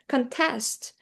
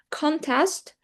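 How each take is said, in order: First: The stress is on the second syllable. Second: The stress is on the first syllable. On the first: The word is a verb. "it turns into a verb" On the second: The word is a noun. "it means like a noun"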